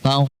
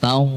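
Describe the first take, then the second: No difference in how they are said.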